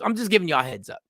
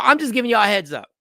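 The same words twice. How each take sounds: First: Said in the usual way. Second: Fast, louder, higher aside to the audience; quick heads-up. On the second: Real, not acted. Host rushing a heads-up to his live audience, fast and loud. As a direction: rattle off the heads up to viewers.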